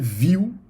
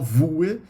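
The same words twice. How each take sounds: First: The name sounds like the English word view. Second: The name is read the way it is spelled. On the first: The speaker calls it right. "a pronúncia é Vue" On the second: The speaker calls it wrong. "Não fala Vue"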